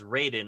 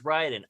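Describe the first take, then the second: First: The name is said with an Americanized pronunciation. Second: The name is said with its Japanese pronunciation. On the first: The name was changed to sound more American. The speaker calls it wrong. "say it as Raiden, R A Y D E N" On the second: This is the name's original pronunciation. The speaker calls it right. "in the games he's Raiden, R A I D N, because that's how that name is pronounced"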